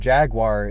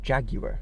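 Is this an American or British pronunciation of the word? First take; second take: American; British. First: It is said with an American pronunciation. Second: It is said with a British pronunciation. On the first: "I think Jaguar is the Americanized way that you say it" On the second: "but the British say Jaguar"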